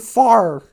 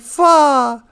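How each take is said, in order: First: The final R is pronounced, Minnesota-style. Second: The final R is dropped, European-style.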